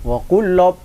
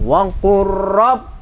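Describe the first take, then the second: First: The middle consonant is a doubled L sound. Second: The middle consonant is a doubled R sound. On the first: The speaker calls it wrong. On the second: The speaker calls it right.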